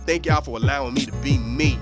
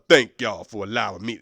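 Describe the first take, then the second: First: It is said in his natural voice. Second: It is said in an exaggerated manly voice.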